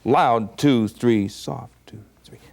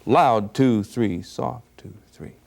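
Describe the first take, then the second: No difference in how they are said.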